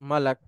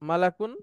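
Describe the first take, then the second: First: The word ends on a bare 'k' consonant. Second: The word ends with an 'un' sound. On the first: The reader stops at this word. "থেমে গেলে শেষ অক্ষরটাতে সুকুন হয়ে যাবে" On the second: The reader carries on without stopping. "দুইটা পেশ আছে"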